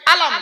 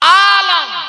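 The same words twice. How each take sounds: First: The first vowel is short, not drawn out. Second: The first vowel is long and drawn out. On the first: It means a sign. "টান হবে না।" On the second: It means the world. "আতে টান হবে।"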